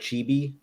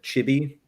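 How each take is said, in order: First: The vowels are long. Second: The vowels are short. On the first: The speaker calls it right. "It's supposed to be two long I sounds" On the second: The speaker calls it wrong. "I said chibi"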